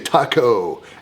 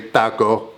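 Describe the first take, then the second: First: It is said with an American pronunciation. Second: It is said with a non-American pronunciation. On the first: "I'm American. I say taco" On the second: "I don't say taco"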